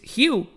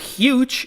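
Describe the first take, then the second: First: The name ends on the vowel sound. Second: The name ends with a 'j' sound. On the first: The speaker calls it right. "It's Hugh, right?" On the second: The speaker calls it wrong. "It's not huge"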